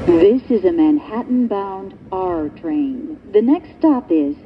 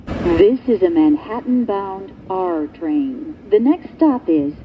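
Both takes have the same delivery.

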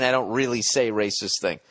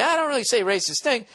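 First: Said in the usual way. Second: High-pitched mock protest; put-on mocking reading. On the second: Shown as a demonstration. Host rereading the emailer's line another way, mocking. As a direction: squeal it in a jokey put-on voice. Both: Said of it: "Or are you saying, like".

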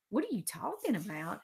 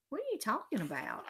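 First: Teasing parrot of someone's words; mocking mimicry. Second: Quick, higher-pitched protest; defensive denial. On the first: Alex teases Peter by repeating him, mocking mimicry. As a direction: echo it back mockingly in a put-on voice. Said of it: "Alex mimicked". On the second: Peter answers Alex's love question, defensive denial. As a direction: brush off the teasing fast. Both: A narrator's reading.

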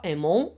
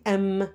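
First: "aimons" with a nasal ending; NT wrongly sounded. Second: "aime" ending on the M; silent NT. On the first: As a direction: say the verb wrongly as "aimons", two syllables. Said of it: "On dit pas aimons". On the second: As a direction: say "aime" as one syllable. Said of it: "Le N, T est muet". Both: Shown as a demonstration.

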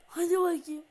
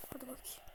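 First: Loud, pushing cheer; loud urging. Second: Soft, low mumble to himself; quiet coaxing. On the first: Gamer loudly urging his player on. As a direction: shout it to spur the player. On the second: Gamer quietly urging his player on. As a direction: mutter it under the breath. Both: Real, not acted.

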